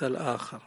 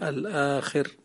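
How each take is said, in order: First: The vowel after kh is a. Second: The vowel after kh is i. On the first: It means the second or other one. The speaker calls it wrong. "والآخر يعني الثاني" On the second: It means the last one. The speaker calls it right. "الآخر يعني الأخير"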